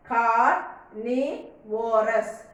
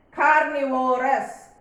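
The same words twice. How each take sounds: First: "Carnivorous" slowly, Car, ni, vorous; syllable by syllable. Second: Said in the usual way. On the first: Shown as a demonstration. Teacher counting three syllables, Carnivorous split slowly part by part. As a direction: break Carnivorous into three slow parts with pauses. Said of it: "Three syllables". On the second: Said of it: "Can you tell how many syllables are there?".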